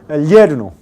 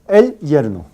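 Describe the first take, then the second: First: The l runs straight into the y sound. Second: The y sound starts a fresh syllable. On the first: The speaker calls it wrong. "Nunca se pronuncia así" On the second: The speaker calls it right.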